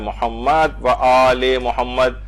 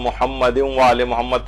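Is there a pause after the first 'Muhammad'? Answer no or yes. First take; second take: yes; no. First: There is a pause after the first Muhammad. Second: It flows on with no pause after Muhammad. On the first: "इसी तरह से जो मैंने अभी पढ़ के बताया" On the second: "वरना अमूमन हम"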